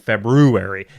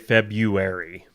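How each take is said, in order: First: The first R sound is clearly pronounced. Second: The first R sound is left out. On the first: This is how it is supposed to be said. "we're supposed to be saying February" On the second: This is how most people say it. "most people say February"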